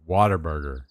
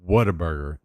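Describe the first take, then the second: First: It sounds like 'water burger'. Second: It sounds like 'what a burger'. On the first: "They say Waterburger" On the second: "they don't say Whataburger"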